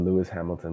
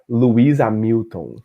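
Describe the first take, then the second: First: The name is said with an English accent. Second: The name is said with a Brazilian Portuguese accent.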